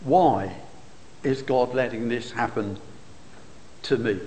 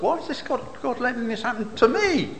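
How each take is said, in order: First: Said in the usual way. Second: "to me" punched high, then falling; stress on last words. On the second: Shown as a demonstration. Preacher mimics people questioning God, stressing "to me". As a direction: land hard on "to me" with a higher, indignant lift. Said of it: "Some people will emphasize the last words".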